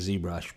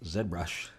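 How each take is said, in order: First: The letter is said as zee, American style. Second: The letter is said as zed, Canadian style.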